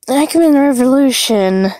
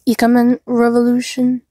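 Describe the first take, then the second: First: Ikemen is said with an American-style pronunciation. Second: Ikemen is said with a Japanese-style pronunciation. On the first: The speaker calls it wrong. "I was making fun of how Americans pronounce Japanese very wrong" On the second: The speaker calls it right. "the correct pronunciation is"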